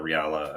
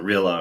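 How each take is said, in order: First: "Riala" said ree-AL-uh, three syllables; alternative pronunciation. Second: "Rila" said RILL-uh, short first vowel; alternative pronunciation. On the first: Guest offering the other option, "Riala" as ree-AL-uh. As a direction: say "Riala" with an extra vowel, ree-AL-uh. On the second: Guest offering one option for the name, "Rila" as RILL-uh. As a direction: say "Rila" in two syllables, RILL-uh. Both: Shown as a demonstration. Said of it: "not sure how you pronounce it".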